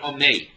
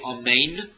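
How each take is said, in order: First: The final 'n' is swallowed and not heard. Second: The final 'n' is clearly pronounced. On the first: The speaker calls it wrong. "you didn't accent the nun" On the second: The speaker calls it right. "You didn't say omein"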